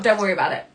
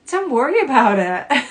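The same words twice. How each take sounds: First: Reassuring. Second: Bright, dismissive brush-off. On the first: A caring grown-up comforting a little child, gently. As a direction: say it to soothe, not dismiss. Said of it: "what are you being silly for". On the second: A grown-up brushing off a child's worry, dismissive. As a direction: wave it away like it's nothing. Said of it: "But not". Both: Shown as a demonstration.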